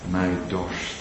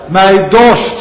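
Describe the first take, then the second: First: Soft, low hushed words; quiet echo. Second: Loud, high cry of thirst. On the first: Acted. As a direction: let it sink in softly. (zacht en laag uitgesproken) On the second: Retold or imitated. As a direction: call it out from the cross. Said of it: "Hij schreeuwt het uit". (luid en hoog uitgeroepen)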